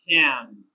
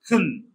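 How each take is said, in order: First: The vowel is full and clearly pronounced. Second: The vowel is reduced to a short weak sound. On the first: "the strong form is pronounced can" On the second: "The weak form of this word is pronounced kun"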